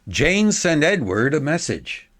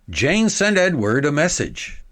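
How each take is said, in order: No difference in how they are said.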